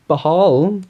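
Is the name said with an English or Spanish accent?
English. The name is said with an English accent.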